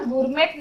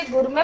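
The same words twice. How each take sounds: First: "गुरमेट" closed with a hard t; t wrongly sounded. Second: "गुरमे" ending on an open e; silent t. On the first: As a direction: misread it as "गुरमेट", sounding the final t. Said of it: "गुरमेट नहीं पढ़ेंगे". ("गुरमेट" में ट बोलकर गलत उच्चारण) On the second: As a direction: say "गुरमे" with no final t. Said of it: "इसे गुरमे पढ़ेंगे". ("गुरमे" में अंत का ट मौन) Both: Shown as a demonstration.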